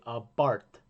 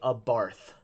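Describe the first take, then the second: First: The word ends with a plain 't' sound. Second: The word ends with a 'th' sound. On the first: The speaker calls it right. "they say a Barth. There's no H" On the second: The speaker calls it wrong. "they don't say a Barth"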